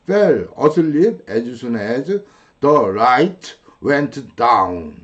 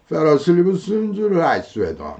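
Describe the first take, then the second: First: Each word is pronounced separately and fully. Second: The words run together with sounds dropped. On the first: The speaker calls it wrong. "한국식은" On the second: The speaker calls it right. "원어민들은... 끊어 말하기 순서대로 자기들 원어민식들대로 발음을 하죠"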